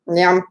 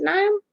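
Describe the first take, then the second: First: "Niam" squeezed into one syllable, NYUM; alternative pronunciation. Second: "Niam" in two syllables, NIGH-um, questioning; pronunciation guess. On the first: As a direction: try "Niam" as a short, falling NYUM. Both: Shown as a demonstration. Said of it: "how do you say your name?".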